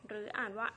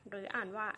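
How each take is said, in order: Both takes have the same delivery.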